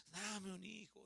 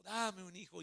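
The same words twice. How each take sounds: First: A hushed plea, much softer; whispered-down plea for a child; soft pleading prayer. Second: Said in the usual way. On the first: Retold or imitated. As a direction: beg quietly, like a private prayer. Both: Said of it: "le pedía a Dios".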